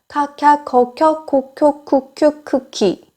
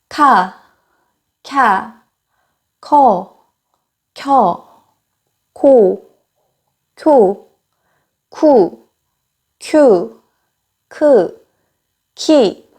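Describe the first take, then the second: First: The syllables are said at a faster pace. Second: The syllables are said at a slower pace.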